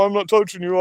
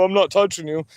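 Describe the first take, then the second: First: Sing-song schoolyard taunt leaning on "touching"; childish taunt. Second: Bratty taunt with the weight on "not"; childish taunt. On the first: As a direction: needle them like a bratty kid, punching "touching". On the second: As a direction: tease like a two-year-old, hitting "not". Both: Retold or imitated. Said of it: "just gonna insult you and go".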